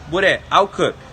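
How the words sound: It is said in a firm, authoritative tone. The dog should move toward the flock. "A voz de autoridade"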